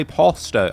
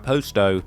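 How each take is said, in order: First: POSTO with an open "ah", like "pahs-toe"; open first vowel. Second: POSTO with a long O, like "post-oh"; English pronunciation. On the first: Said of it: "I'm English. I wouldn't say Posto". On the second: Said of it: "I say Posto, like Posto". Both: Shown as a demonstration.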